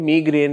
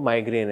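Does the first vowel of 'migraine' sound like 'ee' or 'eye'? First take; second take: ee; eye. First: The first syllable has an 'ee' vowel. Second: The first syllable has an 'eye' vowel. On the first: This is also acceptable in some British English. "British English में कहीं कहीं पे मीग्रेन is also acceptable" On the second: This is the widely used pronunciation. "जो widely used pronunciation है वो माइग्रेन है"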